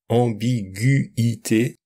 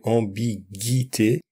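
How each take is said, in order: First: The U and I are said as separate sounds. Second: The U is silent, not heard separately. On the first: This is how it is read with the diaeresis. The speaker calls it right. "Le tréma permet de séparer le U et le I" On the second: This is how it would be read without the diaeresis. The speaker calls it wrong. "Sans le tréma, on dirait"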